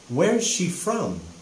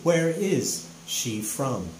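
First: Where and is are joined into one contracted word. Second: Where and is are said as two full words. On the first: It is a casual, informal way to ask. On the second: It is a more formal way to ask.

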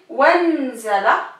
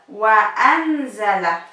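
First: The words run together with no glottal stop. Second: A glottal stop separates wa from anzala. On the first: The speaker calls it wrong. "Si on dit wanzala, ça veut rien dire" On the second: The speaker calls it right. "Donc on rajoute la hamza"

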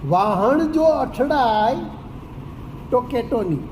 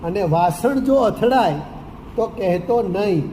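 First: It is said in Surati dialect pronunciation. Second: It is said in standard Gujarati pronunciation. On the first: "એની જગ્યાએ સુરતી હોય તો કેમ બોલે?" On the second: "એમ મૂળ વાત આ છે"

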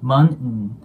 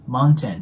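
First: The middle t sound is dropped. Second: The middle t sound is clearly pronounced. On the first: "このT の音がなくなって" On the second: "日本語だったらね、mountain mountain っていう感じで言うと思うんですけど"

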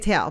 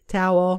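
First: The word is said in a natural regional pronunciation. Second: The word is said in a forced, careful pronunciation. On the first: "because that's my natural setting" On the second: "Which I'm forcing myself to say"

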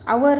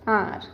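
First: The word is said as two syllables, 'a-war'. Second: The word is said as one syllable, 'ar'. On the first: The speaker calls it wrong. "आवर नाही म्हणायचं आहे" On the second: The speaker calls it right.

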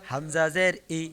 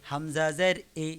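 No difference in how they are said.

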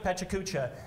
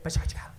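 First: The word is said slowly with every syllable. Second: The word is said fast with syllables squeezed.

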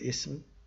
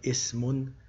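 First: The word ends bare on the consonant m. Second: The word ends with an added 'un' sound. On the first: "if you stop with a sukun" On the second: "pronouncing the tanween dhamma"

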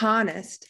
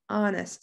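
First: The word starts with an H sound. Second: The word starts with a vowel and no H. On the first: The speaker calls it wrong. "It's not honest" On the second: The speaker calls it right. "it's honest. The H is silent"

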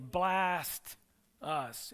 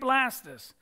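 First: The name is said slowly, split into two words. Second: The name is said quickly as one word.

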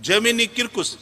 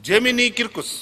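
The two takes are said the same way.

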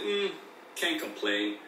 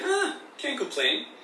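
First: It sounds hesitant, like things are just okay. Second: It sounds upbeat, like things are good.

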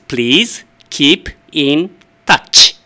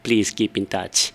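First: The phrase is said more slowly than usual. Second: The phrase is said at a normal speed.

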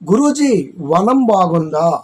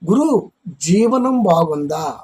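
First: The break falls after guruji, before vanam. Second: The break falls after guru, before jivanam. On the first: It asks whether the teacher's garden is nice. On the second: It asks whether the teacher's life is good.

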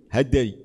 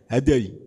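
No difference in how they are said.

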